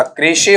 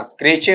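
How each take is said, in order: First: "क्रेशे" as kray-shay, sh in the middle; two-syllable SH. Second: "क्रेचे" as kray-chay, ch in the middle; two-syllable CH. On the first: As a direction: say "क्रेशे" with sh and a final ay vowel. ("क्रेशे" में श के बाद ए की ध्वनि) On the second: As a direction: say "क्रेचे" with ch and a final ay vowel. ("क्रेचे" में च के बाद ए की ध्वनि) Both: Shown as a demonstration. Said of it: "ये सारे सही होंगे या सारे गलत".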